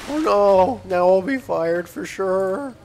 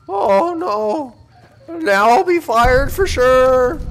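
First: It is said with restrained, flatter emotion. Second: It is said with strong, heightened emotion. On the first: The speaker calls it right. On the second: The speaker calls it wrong.

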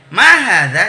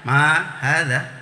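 First: It is said with a clear question intonation. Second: It is said flat, without question intonation. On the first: The speaker calls it right. "ada intonasinya" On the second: The speaker calls it wrong.

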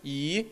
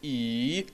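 First: The pitch rises from middle to high. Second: The pitch dips low and then rises. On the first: "второй – «и»" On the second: "третий – «и»"

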